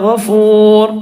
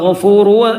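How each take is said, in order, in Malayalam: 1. ഈ വാക്ക് ശുദ്ധമായ r ശബ്ദത്തിൽ അവസാനിക്കുന്നു. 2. ഈ വാക്ക് ഹ്രസ്വ u സ്വരാക്ഷരത്തിൽ അവസാനിക്കുന്നു. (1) "നിർത്തുമ്പം അവസാനത്തെ അക്ഷരത്തിന് സുക്കൂനാണ് ചെയ്യേണ്ടത്" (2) "അവിടെ ഗഫൂറു എന്നാണുള്ളത്"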